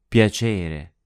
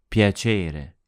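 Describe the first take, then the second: The two takes are said the same way.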